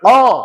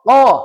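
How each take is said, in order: The two takes are said the same way.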